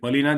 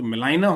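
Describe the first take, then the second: First: The second syllable has a 'lee' sound. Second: The second syllable has a 'lie' sound.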